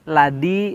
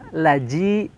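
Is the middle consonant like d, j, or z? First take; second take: d; j. First: The middle consonant sounds like a d. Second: The middle consonant sounds like a j. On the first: "ini sama dengan da" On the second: "atau menjadi ja, laji, salah ya"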